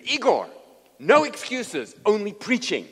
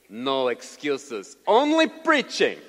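First: Loud, high, emphatic order; stern command. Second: Put-on slow, loud Russian-accented command; Igor. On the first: Retold or imitated. Preacher telling his sick translator to preach, loud stern command. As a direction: overrule all excuses forcefully. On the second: Russian translator to the sick preacher, stern Russian-accented order. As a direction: throw it back in a heavy Russian accent. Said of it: "And he says to me".

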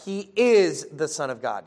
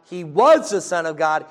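First: Settled declaration with emphasis on "is"; stress on is. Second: Emphatic declaration leaning on "was"; stress on was. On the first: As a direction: lean firmly on the word "is". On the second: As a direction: hit the word "was" hard, then ease off. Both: Real, not acted. Contrasts was with is.

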